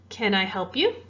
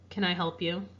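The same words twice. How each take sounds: First: The voice goes up at the end. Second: The voice stays level with no rise. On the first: It is asked as a real question. "Did you hear how my voice went up at the end of that question?" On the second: It shows a very different emotion. "What if I had no intonation?"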